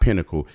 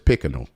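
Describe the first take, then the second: First: The word is said as 'pinnacle' with an n. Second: The word is said as 'pickinal' with a k. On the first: "It's not pinnacle" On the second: "the little kid keep on saying pickinal instead of pinnacle"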